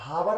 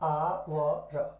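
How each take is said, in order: First: The word begins with an h sound. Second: The word begins directly with a vowel. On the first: The speaker calls it wrong. "हावर नहीं पढ़ा जाता है" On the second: The speaker calls it right. "आवर पढ़ा जाता है"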